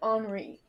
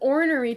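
First: The word sounds like the French name Henri. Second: The word is said in its full ornery form. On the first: "[name] says it like Henri. She said Henri" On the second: "He says ornery, too"

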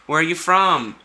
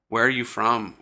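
First: It sounds friendly and casual. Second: It sounds creepy and stalker-like.

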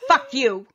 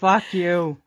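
First: It sounds angry and sharp. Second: It sounds tired and exasperated.

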